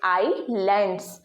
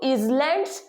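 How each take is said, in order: First: The first syllable sounds like 'eye'. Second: The first syllable sounds like 'iz'. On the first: The speaker calls it right. "ये जो एस है आपका ये silent है" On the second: The speaker calls it wrong. "आई एस को आई एस हम generally read करते हैं इज ... गलत"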